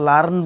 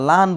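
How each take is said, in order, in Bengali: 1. r ধ্বনিটি স্বরবর্ণের পরে উচ্চারিত হয়। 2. r বাদ যায় এবং স্বরটি দীর্ঘ হয়। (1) "লার্ন বলছি না" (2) "রটাকে বাদ দিয়ে দিব তখন সেখানে একটু লম্বা সাউন্ড করব"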